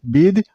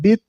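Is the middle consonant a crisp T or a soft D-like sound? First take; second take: soft D; crisp T. First: The consonant is a soft D-like sound. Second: The consonant is a crisp T sound. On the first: The speaker calls it right. "you should make a little bit D sound" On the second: The speaker calls it wrong. "You shouldn't make a T sound"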